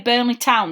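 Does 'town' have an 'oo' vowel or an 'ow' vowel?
ow. Town is said with an 'ow' vowel. This is how the speaker's own area says it. "when we say Burnley Town"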